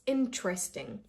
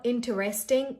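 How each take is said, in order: First: Interesting as "in-tresting"; interesting run together, no "ter"; correct pronunciation. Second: Interesting as "in-ter-est-ing", four syllables; interesting with full "ter-REST"; wrong pronunciation. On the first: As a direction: say interesting in three syllables. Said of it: "this is interesting". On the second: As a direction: break interesting into many pieces. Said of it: "This is not interesting". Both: Shown as a demonstration.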